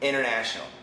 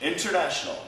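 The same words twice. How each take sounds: First: The T after the N is dropped. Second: The T after the N is clearly pronounced. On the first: "But usually we say international" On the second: "Perfect pronunciation"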